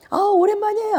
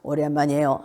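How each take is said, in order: First: Very high, sing-out greeting; bright-toned exaggerated high hello; raised tone. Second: Sunken, low-pitched greeting; low, level hello without energy. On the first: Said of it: "좀 톤을 올려라". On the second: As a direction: let the greeting sink down low. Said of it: "낮은 자는 이제 목소리가 이렇게 착 가라앉은". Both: Shown as a demonstration.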